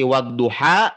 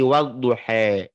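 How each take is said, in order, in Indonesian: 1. Vokal akhirnya adalah a terbuka biasa. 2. Vokal akhirnya condong ke bunyi e.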